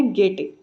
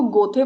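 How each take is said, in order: First: "गेटे" said as "gay-tay"; corrected Goethe pronunciation. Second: "गोथे" said as "go-the"; mispronounced Goethe. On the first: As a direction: say "गेटे" with an e and a hard t. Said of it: "इसकी correct pronunciation है". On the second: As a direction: say "गोथे" with an o and a th sound. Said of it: "जो कि गलत है". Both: Shown as a demonstration.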